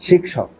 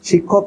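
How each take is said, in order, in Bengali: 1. মাঝের যুক্ত ব্যঞ্জনটি sh-সহ kh-এর মতো শোনায়। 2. মাঝের যুক্ত ব্যঞ্জনটি সাধারণ kh-এর মতো শোনায়। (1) "কিন্তু শিক্ষক" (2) "শিক্ষক না"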